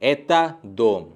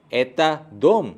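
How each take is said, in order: First: एता दोम slow, falling like a statement. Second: दोम stressed and lifted as a question; question intonation. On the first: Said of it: "दूसरे sentences पे". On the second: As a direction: ask एता दोम by lifting दोम. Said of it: "सिर्फ एक intonation add होगा". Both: Shown as a demonstration.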